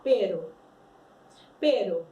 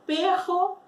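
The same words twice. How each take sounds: First: Pero with one light tapped R, short and low; single tap R. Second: Perro with a strong trilled double R from the tongue tip; perro con erre múltiple vibrante; strong rolled R. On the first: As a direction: tap the R once in Pero, like caro. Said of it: "olha só como eu falo pero". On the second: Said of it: "Como a gente fala esse perro aí com dois R's?". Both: Shown as a demonstration.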